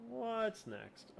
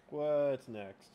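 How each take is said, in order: First: Much higher and softer, a light put-on voice; squeaky high repeat. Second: Said in the usual way. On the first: Host echoing his own question in a tiny high voice. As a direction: pitch it way up and pull it back in volume.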